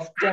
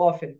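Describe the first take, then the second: First: The t sound is pronounced in the middle. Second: The t sound is left out in the middle. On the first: The speaker calls it wrong. "অফটেন হবে না" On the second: The speaker calls it right. "এটা হবে how অফেন"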